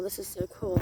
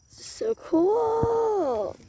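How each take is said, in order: First: Said in the usual way. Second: Excited. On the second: Pretend. Same words drawn out high.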